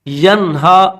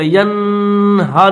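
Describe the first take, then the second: First: The n is plain, with no nasal hum. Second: The n is held with a nasal hum. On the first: The speaker calls it right. "यनहा तो बगैर गुन्ने के पढ़ा जाएगा" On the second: The speaker calls it wrong. "यन हा नहीं पढ़ेंगे"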